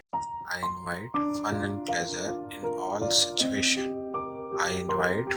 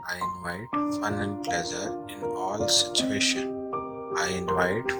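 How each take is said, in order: Both takes have the same delivery.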